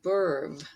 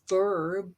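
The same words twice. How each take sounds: First: The word begins with a B sound. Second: The word begins with a V sound.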